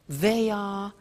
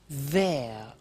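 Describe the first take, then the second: First: It is said as two full words. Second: It is said as one contracted word.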